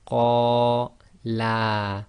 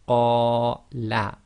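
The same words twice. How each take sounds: First: The first vowel is long, the final vowel long. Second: The first vowel is long, the final vowel short. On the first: Two men said it. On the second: One man said it.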